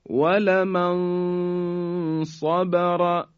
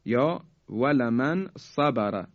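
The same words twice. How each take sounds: First: ولمن صبر slow, nun hidden before a heavy ص; heavy ikhfa. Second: Said in the usual way. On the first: Shown as a demonstration. Teacher reciting slowly to show heavy ikhfa. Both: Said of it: "به این مثال توجه بفرمایید".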